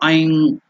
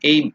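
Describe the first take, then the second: First: The word ends in a long nasal sound. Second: The word ends in a short plain M. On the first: The speaker calls it right. "I elongated M, the nasal one" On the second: The speaker calls it wrong. "It's not aim"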